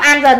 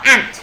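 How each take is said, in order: First: The word is split into two syllables. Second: The word is said as one short syllable. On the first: The speaker calls it wrong. "không đọc an dần nha" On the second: The speaker calls it right. "đọc ant"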